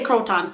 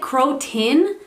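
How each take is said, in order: First: The last syllable sounds like "ton". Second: The last syllable sounds like "tin". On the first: This is how the speaker personally says it. "I always say Croton" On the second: This is how many other people say it. "people pronounce it Crotin"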